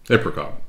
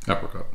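First: APRICOT with a long A as in ape; alternative pronunciation. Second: APRICOT with a short A as in apple; own pronunciation. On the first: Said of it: "I pronounce it". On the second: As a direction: say "apricot" as "APP-ri-cot". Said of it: "I, I pronounce it". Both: Shown as a demonstration.

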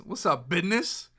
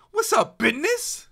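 First: Said in the usual way. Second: Squeaky high hype greeting; high put-on greeting. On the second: Streamer greets chat in a squeaky high voice. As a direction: pitch it way up like a cartoon.

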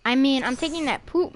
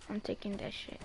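First: Said in the usual way. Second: Much softer, low muttered swear; muttered curse. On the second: Real, not acted. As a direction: slip out "shit" under your breath.

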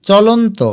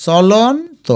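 First: Said in the usual way. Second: চলন্ত as cholon with rising pitch, then to; broken into parts. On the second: Shown as a demonstration. Teacher sounds it out for spelling, চলন্ত in parts. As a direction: pause before the final to of চলন্ত. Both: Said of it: "ভেঙে ভেঙে লিখবে".

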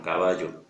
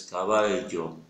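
First: Caballo said with a plain y sound, as in Latin America; usual caballo. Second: Caballo with a clear, slow, held ll; careful caballo. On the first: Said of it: "directamente se dice". (caballo con ll como y, a la americana) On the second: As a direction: caballo said slowly, the ll fully pronounced. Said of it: "que no es la correcta, es caballo". (caballo despacio, la ll bien marcada) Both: Shown as a demonstration.

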